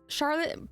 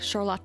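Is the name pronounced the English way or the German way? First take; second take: English; German. First: The name is said with an English pronunciation. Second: The name is said with a German pronunciation. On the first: The speaker calls it wrong. "it's Charlotte, but" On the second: The speaker calls it right. "pronounced the more German way. So I think it's supposed to be more like Charlotte"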